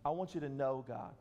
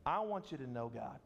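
First: Weight on "know", said low and deliberate; low-pitched line with emphasis landing on "know"; stress on KNOW. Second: Said in the usual way. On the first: Shown as a demonstration. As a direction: lean on the word "know". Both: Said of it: "An emphasis on the word know".

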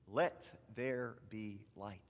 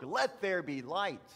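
First: Slow, lower, word by word; slow lead-along. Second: Emphatic, raised proclamation of God's words; proclaiming as God. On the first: Shown as a demonstration. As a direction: space out each word for children to repeat. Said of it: "Can you say". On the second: Retold or imitated. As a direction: proclaim it firmly, lightly voicing God. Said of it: "how God spoke".

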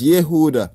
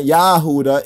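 First: "Yehuda" with a short YEH at the start; "Yehuda" opening on an eh vowel; corrected form Yehuda. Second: "Yahuda" with a stressed YAH at the start; "Yahuda" opening on a full ah vowel; wrong form Yahuda. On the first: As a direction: say "Yehuda" with "yeh", not "yah". Corrects the first vowel again. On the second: Rejects this form again. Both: Shown as a demonstration.

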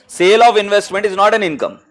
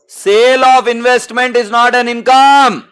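First: Said in the usual way. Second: Higher, drawn-out, ringing teacher's call; loud and slow, swelling on "income"; emphatic repeat. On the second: Real, not acted. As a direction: hammer the rule home, stretching "income". Teacher repeats rule with force.

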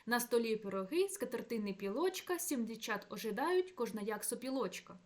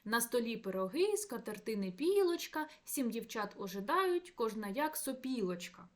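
First: Пілочка and сопілочка stressed to fit a smooth, even anapest; stress shifted to meter. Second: Пілочка and сопілочка said with their everyday stress, breaking the anapest; natural word stress. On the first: Lecturer rereads the lines with stress moved for even anapest. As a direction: scan it evenly in strict anapest rhythm. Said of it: "Якщо замінити наголоси в цих словах".

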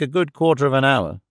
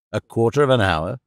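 First: Said in the usual way. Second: Understated questioning echo, rising at the end; mild exclamation. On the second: A narrator's reading. Madeleine questions the peasant about the wait, mildly exclaiming. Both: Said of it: "exclaimed Madeleine".

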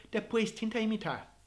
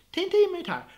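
First: Said in the usual way. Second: Tenta imitar with Tenta thrown up high and loud; emphatic repeat. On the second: Shown as a demonstration. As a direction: push Tenta up high, louder.

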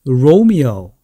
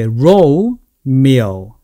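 First: "Romeo" as one word with gliding "ou" at both ends; joined-up Romeo. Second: "Romeo" very slowly split, rou... mio; syllable-by-syllable Romeo. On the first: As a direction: model "Romeo" in a single smooth run. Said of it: "앞에는 O". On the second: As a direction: stretch and separate "Romeo" for learners. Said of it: "이렇게 됩니다". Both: Shown as a demonstration.

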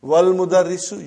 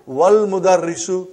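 First: Wal Mudarrisu with wal stressed; no hamza. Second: Wal Mudarrisu with the hamza dropped, wal stressed. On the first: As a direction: Wal Mudarrisu as one word. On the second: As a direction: link Wal straight into Mudarrisu. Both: Shown as a demonstration. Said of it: "you did not pronounce Hamza".

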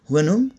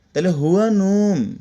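First: হুয়া নুম pushed with a rise on নুম, as a question; question tune. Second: হুয়া নুম said as a plain statement, falling at the end; statement tune. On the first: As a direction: ask হুয়া নুম, lifting নুম at the end. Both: Shown as a demonstration. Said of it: "আমি যখন ধাক্কা দিব দেখেন".

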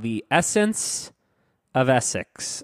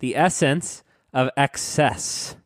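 First: "Essex" said in place of "excess", first syllable stressed; slip of the tongue. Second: "excess" said slowly with a clear "ek-SESS"; slow down and articulate both syllables of "excess"; careful correction. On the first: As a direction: stumble into saying "Essex", with a short pause before it. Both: Real, not acted. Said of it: "Of, no".

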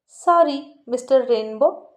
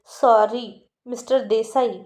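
First: Slow, louder sneering sorry with a rise; mocking sorry, twisted mouth. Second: Slow, drawn-out mock sorry; sarcastic apology. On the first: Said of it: "असं तोंड वाकडं करत म्हणाली".

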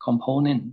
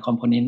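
First: "component" slowly, stress on PO: com-PO-nent; slow model "component" with the second syllable hit. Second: "component" said Thai-style, stress on the first syllable COM; Thai-style pronunciation. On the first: Teacher modelling correct "component", slow, stress on PO. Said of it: "จริงๆต้อง stress พยางค์สองนะ". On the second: Teacher showing students the common Thai-accented "component". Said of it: "อันนี้พูดเป็นแบบสำเนียงไทยๆ". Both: Shown as a demonstration.

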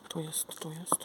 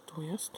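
First: Whispering. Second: Said in the usual way. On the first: Real, not acted. Excited whisper finding a letter.

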